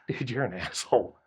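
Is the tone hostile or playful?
playful. It sounds friendly and joking. The insult is meant as a joke. "And now they're laughing with you"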